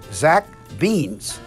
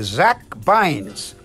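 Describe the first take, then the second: First: The surname rhymes with 'beans'. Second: The surname does not rhyme with 'beans'. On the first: The speaker calls it right. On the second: The speaker calls it wrong.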